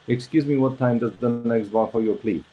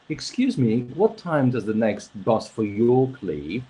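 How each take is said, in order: First: The pitch stays flat with little movement. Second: The pitch moves up and down expressively. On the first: "very flat. ... But usually it's like" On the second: "So it's not like"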